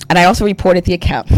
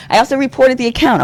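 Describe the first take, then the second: First: Said in the usual way. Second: Repeated higher with laughing disbelief; incredulous higher emphasis after a laugh; emphatic higher repeat. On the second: Real, not acted.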